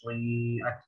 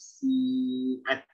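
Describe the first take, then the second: First: The first consonant sounds like a heavy s. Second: The first consonant is a light, thin s. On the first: The speaker calls it wrong. "Suyi jadi kayak huruf shad" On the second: The speaker calls it right. "jelaskan ketis, ketipisan sini ya"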